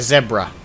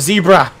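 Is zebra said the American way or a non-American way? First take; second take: non-American; American. First: Zebra is said with a non-American pronunciation. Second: Zebra is said with the American pronunciation. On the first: The speaker calls it right. "Or sorry" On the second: The speaker calls it wrong. "the pronunciation we Americans are taught is wrong"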